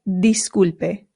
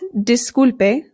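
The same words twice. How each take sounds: First: The first vowel is a clear 'ee' sound. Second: The first vowel is a short English 'ih'. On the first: The speaker calls it right. "it is disculpe" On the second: The speaker calls it wrong. "this is not disculpe"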